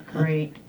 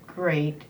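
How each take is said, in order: Both takes have the same delivery.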